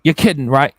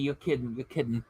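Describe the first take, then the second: First: Louder, exasperated you're kidding; exasperated loud disbelief. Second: Soft, low you're kidding; quiet, stunned mutter; muttered disbelief. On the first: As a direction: call it out, can't believe it. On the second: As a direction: say it half to yourself, stunned. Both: Real, not acted. Disbelief at a viewer's comment.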